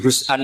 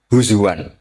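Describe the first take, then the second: First: The middle consonant is a glottal stop. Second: The middle consonant is a w sound. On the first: "ketika jadi husan" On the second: "hamzah ditakhuf jadi wawu"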